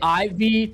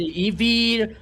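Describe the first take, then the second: First: The name is said another common way. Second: The name is said the Brazilian way. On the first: This is how some other people say it. "Some some people say Ivy" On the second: This is how people in Brazil say it. "Here in Brazil, we say Evie"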